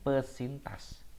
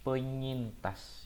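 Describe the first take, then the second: First: It is said with a plain s after pe. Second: It is said with an ny sound after pe. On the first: The speaker calls it wrong. "bukan pesintas" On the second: The speaker calls it right. "tapi penyintas"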